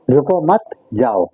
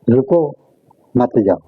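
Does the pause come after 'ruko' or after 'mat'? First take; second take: after mat; after ruko. First: There is a pause right after 'mat'. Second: There is a pause right after 'ruko'.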